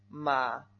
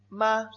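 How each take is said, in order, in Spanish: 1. Se dice con el tercer tono, bajo y con descenso. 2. Se dice con el primer tono, alto y plano. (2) "Primer tono"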